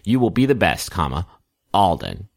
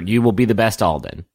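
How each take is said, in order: First: There is a clear pause before Alden. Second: It runs straight on into Alden without a pause.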